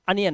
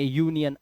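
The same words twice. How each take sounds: First: अनियन said with a short uh at the start; wrong reading. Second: यूनियन with a clear you sound at the start; say union. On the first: Teacher showing students the wrong reading अनियन, opening on uh. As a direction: show the mistake with अनियन, opening on uh. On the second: Teacher showing students the right start of यूनियन, clear you sound. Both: Shown as a demonstration. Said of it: "अनियन नहीं".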